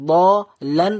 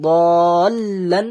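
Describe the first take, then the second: First: দলান split as দ, then লান, a gap between; unjoined lam. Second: দলান stretched loud, first vowel long into doubled l; joined lam. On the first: Teacher showing what was not said, দলান split. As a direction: leave the first part of দলান open. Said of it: "দলান বললাম না". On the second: Teacher showing the correct form, দলান long and joined. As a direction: hold দলান and join the lam. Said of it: "দলান বললাম". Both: Shown as a demonstration.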